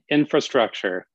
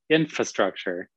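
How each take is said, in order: First: The first syllable has an R sound. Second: The first syllable has no R sound. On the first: The speaker calls it right. "there's an extra R in there" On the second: The speaker calls it wrong. "he said infa the whole time"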